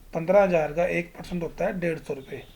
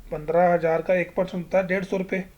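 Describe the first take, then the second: The two takes are said the same way.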